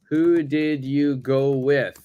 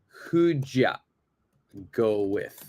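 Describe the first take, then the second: First: Each word is said fully and separately. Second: 'Did you' is squeezed into a short 'd ya'.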